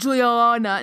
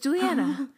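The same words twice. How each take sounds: First: The name is said in a heavy, forced way. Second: The name is said in a light, flowing way. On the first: The speaker calls it wrong. "Her name is not Juliana. It is not Juliana. No. How dare you? That's wrong" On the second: The speaker calls it right. "it flows very easily. You don't have to force it. So it's Juliana. It's very light and airy"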